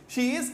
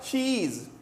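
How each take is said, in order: First: The two words are said fully and separately. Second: The two words are merged into one syllable.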